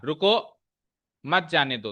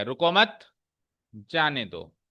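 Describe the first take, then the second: First: रुको rising and cut off by a pause, then मत जाने दो; pause after रुको. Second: रुको मत joined and rising, pause, then जाने दो lower; pause after मत. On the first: Teacher shows how a pause changes meaning, breaking after रुको. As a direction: put the break right after रुको, before मत. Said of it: "अब अगर मैंने pause रुको पे मारा". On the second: Teacher moves the pause to flip the meaning, breaking after मत. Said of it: "यही पॉज मैंने यहां से हटा के और मत के आगे लगा दिया". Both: Shown as a demonstration.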